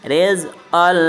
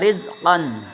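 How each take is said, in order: First: The word ends with an l sound. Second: The word ends with a clear n sound. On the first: The speaker calls it right. "tetapi dibacanya rizqol" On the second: The speaker calls it wrong. "bukan bacanya rizqon"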